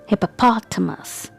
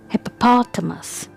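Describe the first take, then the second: First: The stress is on the 'pot' syllable. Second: The stress is on the 'pot' syllable.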